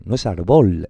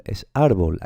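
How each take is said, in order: First: Árbol with the stress wrongly pushed to bol, louder; wrong stress demo. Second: Árbol stressed on ár, bol falling away; correct stress demo. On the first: Teacher to students, mispronouncing árbol on purpose. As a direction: punch the last syllable of árbol. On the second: Teacher to students, giving the correct stress of árbol. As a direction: lean on the first syllable of árbol. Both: Shown as a demonstration.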